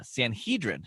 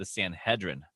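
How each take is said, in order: First: Sanhedrin with a long "hee" in the middle. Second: Sanhedrin with a short "hed" in the middle. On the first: Co-host offers his own way to say it, Sanhedrin as san-HEE-drin. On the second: Teasing the host's way of saying it, Sanhedrin as san-HED-rin. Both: Shown as a demonstration. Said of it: "or as you might say".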